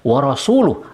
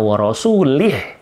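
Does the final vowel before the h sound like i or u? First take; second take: u; i. First: The word ends with an u vowel before h. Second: The word ends with an i vowel before h. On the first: God and His Messenger disown the idolaters. "diucapkan wa rasuluh" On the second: God disowns the idolaters and His Messenger. "dan wa rasulih"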